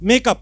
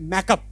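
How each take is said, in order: First: The first vowel is a long 'ay' sound. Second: The first vowel is an open 'a' sound. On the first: This is the standard form of the word. "बैठा हुआ लफ्ज है" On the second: This is how people in Karachi say it. "Karachi में होता है"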